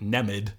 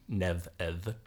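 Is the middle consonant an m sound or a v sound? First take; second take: m; v. First: The middle consonant is a plain m sound. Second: The middle consonant is a softened v sound. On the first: The speaker calls it wrong. "those who haven't taken up Old Irish would probably pronounce it Nemid" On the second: The speaker calls it right. "The M and D are in fact going to be lenited"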